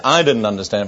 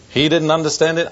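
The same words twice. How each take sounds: First: "I didn't understand it" as the lower answering half; stress on I. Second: "He didn't understand it" pitched higher, pointing at "He"; stress on HE. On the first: Preacher comparing himself with his friend, low contrastive stress on "I". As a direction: put contrastive weight on "I", keeping the phrase low. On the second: Preacher comparing his friend with himself, higher contrastive stress on "He". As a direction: set "He" up high as the first half of a contrast. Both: Real, not acted.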